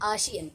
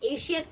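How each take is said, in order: First: The word begins with an open 'ah' vowel. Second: The word begins with an 'ay' vowel. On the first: The speaker calls it right. "आशियन ही बोलना। आशियन is the correct way" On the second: The speaker calls it wrong. "एशियन मत बोलना"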